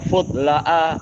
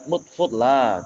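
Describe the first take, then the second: First: The word ends with an added short syllable. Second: The word ends in a lengthened vowel. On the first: The speaker calls it wrong. "tak mungkin kita membaca" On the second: The speaker calls it right. "begitu aja dibaca dengan mat"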